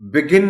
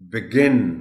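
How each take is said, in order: First: The stress is on the first syllable. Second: The stress is on the second syllable. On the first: The speaker calls it wrong. "Begin नहीं बोल सकते इसको" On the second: The speaker calls it right. "Stress जी पर है"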